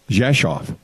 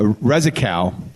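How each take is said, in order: First: It is said with Polish sounds, like Jeshoff. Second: Each letter is sounded out the English way. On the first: This is how people actually say it. The speaker calls it right. "in Polish it's uh, pronounced" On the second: This is how the spelling looks to an English reader. The speaker calls it wrong. "it looks like Rezikov"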